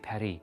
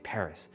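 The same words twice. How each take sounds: First: It is said with a French pronunciation. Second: It is said with an English pronunciation. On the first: "You guys say Paris" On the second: "I know you guys don't say Paris"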